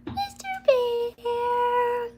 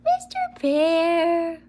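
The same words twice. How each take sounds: First: Much higher, very slow, softer coo; squeaky pet call. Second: Higher, slow drawn-out coo; pet-talk call. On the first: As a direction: squeal the name to the dog. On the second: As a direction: call the dog sweetly, stretching it. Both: Real, not acted. Calling dog in pet voice.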